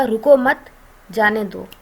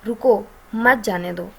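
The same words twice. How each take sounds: First: रुको मत run together, a clear break, then जाने दो; pause after मत. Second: रुको, a clear break, then मत जाने दो together; pause after रुको. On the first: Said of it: "लेकिन अगर मैं कॉमा लगा देती हूँ". ("रुको मत" एक साथ, ठहराव, फिर "जाने दो") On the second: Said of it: "अगर मैं लगा देती हूँ कॉमा". ("रुको" के बाद ठहराव, फिर "मत जाने दो" एक साथ) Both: Shown as a demonstration.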